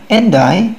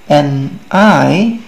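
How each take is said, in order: First: The two words run together quickly as one. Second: The two words are said slowly and separately.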